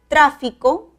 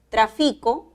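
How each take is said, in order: First: The stress is on the first syllable. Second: The stress is on the middle syllable. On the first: It is a noun. "palabra esdrújula con tilde" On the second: It is a verb. "es una palabra grave"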